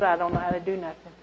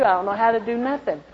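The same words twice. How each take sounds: First: Said in the usual way. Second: Louder, higher panicked thought; retold panic. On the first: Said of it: "like I said". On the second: An ex-convict telling the church her old panic, a touch alarmed. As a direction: replay the fear that night, pressing harder. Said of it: "You know, I thought".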